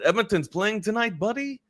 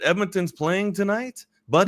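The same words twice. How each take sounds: First: It is said in a put-on French accent. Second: It is said in the speaker's ordinary accent.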